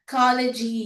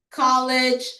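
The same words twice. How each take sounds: First: The word is said in a Korean-style accent. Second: The word is said in a plain accent.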